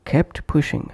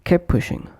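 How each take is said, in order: First: KEPT PUSHING with the t of KEPT released; full final T. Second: KEPT PUSHING as "kep pushing"; dropped T. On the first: Teacher repeating separate words, full final T. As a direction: say "kept" fully, then "pushing". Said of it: "pronounced as". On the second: Teacher repeating connected pronunciation, dropped T. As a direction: push "kep" straight into "pushing". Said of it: "omitting T or T completely". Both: Shown as a demonstration.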